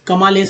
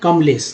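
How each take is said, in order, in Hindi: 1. म और ल के बीच पूरा स्वर सुनाई देता है। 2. म सीधे ल से जुड़ता है, बीच में कोई स्वर नहीं। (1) "कमालेश नहीं" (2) "टूटा हुआ आधा म का ही उच्चारण हो रहा है"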